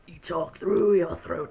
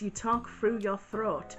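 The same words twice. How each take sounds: First: It is said in a throaty Cat Chaos voice. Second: It is said in his normal voice.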